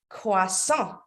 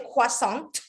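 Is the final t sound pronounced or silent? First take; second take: silent; pronounced. First: The final t sound is silent. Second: The final t sound is pronounced. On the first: The speaker calls it right. "it's better if you say croissant" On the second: The speaker calls it wrong. "don't say the t at the end. You don't say croissant"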